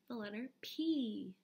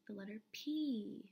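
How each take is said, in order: No difference in how they are said.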